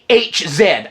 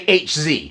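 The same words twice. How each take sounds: First: The letter Z is said as 'zed'. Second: The letter Z is said as 'zee'. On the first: "I don't say H Z" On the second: "I say H Z"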